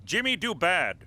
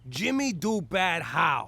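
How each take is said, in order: First: Dumbed-down English. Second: Slow caveman-style Jimmy do bad how; broken English echo. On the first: Acted. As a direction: say Jimmy do bad in simple broken words. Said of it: "Speak American". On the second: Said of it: "now we're communicating".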